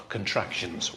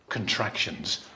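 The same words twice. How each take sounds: The two takes are said the same way.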